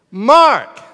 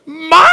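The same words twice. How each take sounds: First: Loud one-word call, higher pitch. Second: Full-out high yell of a name; exasperated yell. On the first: Parent calling child who gives nothing back, loud call. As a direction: call firmly to an unanswering child. Parent calls again, no answer. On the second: Parent at wits' end calling child with beats on, yelling. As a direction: bellow for the child upstairs. Parent's last call, fed up. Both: Acted.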